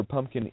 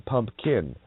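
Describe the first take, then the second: First: Said in the usual way. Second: "pumpkin" slowed into two parts, pump and kin; slow, deliberate "pumpkin", each half on its own; split pumpkin. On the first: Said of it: "Yeah, pumpkin". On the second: Shown as a demonstration. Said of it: "you're a pump of knowledge".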